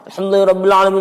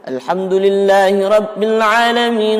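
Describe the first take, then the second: First: It is recited extremely fast, words nearly mumbled. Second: It is recited quickly but still clearly. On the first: "hadramah itu gimana? Cepat banget" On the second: "Kalau hadar gimana? ... itu had hadar"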